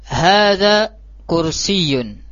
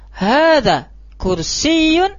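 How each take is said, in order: First: The voice falls at the end like a statement. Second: The voice rises at the end like a question. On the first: It states that this is a chair. The speaker calls it right. "ini kan khabariyah, pengkhabaran" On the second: It asks whether this is a chair. The speaker calls it wrong. "Jangan sampai kita bacanya ... itu kalimatnya apa? Istifhamiyah"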